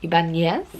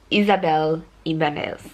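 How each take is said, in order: First: Ibanez with a Spanish ny, questioning; attempted Mexican accent. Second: Ibanez with a plain n and voiced z ending; attempted name pronunciation. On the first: Reader retrying an author's name, awkward Mexican accent on Ibanez. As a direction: try Ibanez as i-ban-YES in a tentative Mexican accent. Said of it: "I'm putting it on so badly". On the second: Reader attempting an author's name, careful Ibanez with a sounded z. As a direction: say Ibanez as i-ban-EZ, unsure. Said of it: "I'm not good at doing a Mexican accent". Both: Shown as a demonstration.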